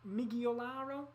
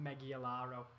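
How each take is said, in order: First: The name is said in a Brazilian accent. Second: The name is said in a northern English accent. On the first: "I'm trying to sound like I'm from Gremio and how they'd pronounce it" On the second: "it doesn't sound as good when you say it in a northern accent"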